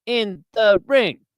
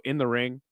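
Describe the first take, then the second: First: Slow, high sportscaster cadence; Howard Cosell. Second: Said in the usual way. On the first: Shown as a demonstration. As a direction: draw out IN THE RING with swooping pitch. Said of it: "all his inflections and cadence is kinda like William Shatner". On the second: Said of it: "all his inflections and cadence".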